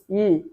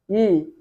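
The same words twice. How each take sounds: No difference in how they are said.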